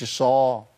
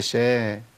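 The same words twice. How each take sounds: First: الشا with a heavy, dark vowel; thickened shin. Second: شا with a light, fronted vowel; thin shin. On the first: Teacher rejecting the misreading, heavy shin in الشا. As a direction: say الشا thick, like "ash-sho". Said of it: "يا عم مش". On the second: Teacher correcting the misreading, thin shin in شا. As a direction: say شا thin, like "shae". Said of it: "هي شا". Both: Shown as a demonstration.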